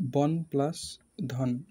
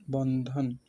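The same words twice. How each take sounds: First: Slow, split into বন and ধন with a pause; teacher breaking a word into syllables; syllables split apart. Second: Said in the usual way. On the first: Shown as a demonstration. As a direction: spell out Bandhan as বন, then ধন, slowly.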